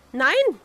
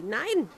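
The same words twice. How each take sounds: First: A sharp, loud no; loud refusal. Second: Said in the usual way. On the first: A narrator's reading. Princess refusing the frog, crying out no loudly. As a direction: cry out no, the louder of the two. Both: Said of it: "rief sie".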